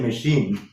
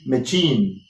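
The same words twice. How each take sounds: First: The middle consonant is an sh sound. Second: The middle consonant is a ch sound. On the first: The speaker calls it right. "we say machine" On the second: The speaker calls it wrong. "If chief is chief, M A C H I E N could be machine"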